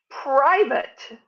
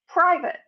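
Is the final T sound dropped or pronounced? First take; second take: pronounced; dropped. First: The final T sound is clearly pronounced. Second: The final T sound is left off. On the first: The speaker calls it right. "The British say private. Can you hear the T?" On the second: The speaker calls it wrong. "We don't articulate the T at all"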